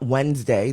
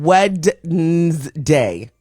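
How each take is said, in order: First: It is said the usual, shortened way. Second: Every letter is sounded out as spelled. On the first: This is how the word is normally said. The speaker calls it wrong. "not Wednesday" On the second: This is how the word ought to sound. The speaker calls it right. "it should be called Wednesday"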